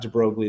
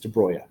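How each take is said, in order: First: The name gets a common American-style pronunciation. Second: The name gets a different, non-American pronunciation. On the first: The speaker calls it wrong. "It's not de Broglie" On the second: The speaker calls it right. "that's how you actually pronounce this"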